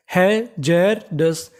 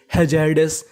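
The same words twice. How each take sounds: First: hazardous very slowly as hai-jar-das; syllable by syllable. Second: Said in the usual way. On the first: Shown as a demonstration. Teacher building the whole word for learners, syllable by syllable. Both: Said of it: "तो पूरी meaning".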